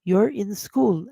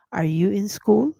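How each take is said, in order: First: You're in school, falling flat at the end; teacher saying you're in school slowly as a statement. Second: Are you in school rising on school; question rise. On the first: Teacher models the statement, you're in school falling. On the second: Teacher turns it into a question, school rising. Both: Shown as a demonstration. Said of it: "And it's a question".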